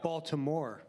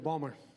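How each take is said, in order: First: The name is said with all three syllables. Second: The name is shortened to two syllables. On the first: This is how local people do not say it. "Not Baltimore" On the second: This is how local people say it. "They say Balmer"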